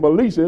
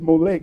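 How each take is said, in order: First: The name ends with a 'sha' sound. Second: The name ends with a 'k' sound. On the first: The speaker calls it wrong. "so I keep saying Melisha. It doesn't sound like that at all" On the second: The speaker calls it right. "I think it's Molech"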